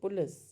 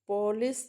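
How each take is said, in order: First: The vowel is dropped, so p and l join. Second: A full vowel is heard between p and l. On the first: The speaker calls it right. "तो ऐसा लगता है P और L एक साथ है" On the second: The speaker calls it wrong. "तो पॉलिस नहीं बोलते"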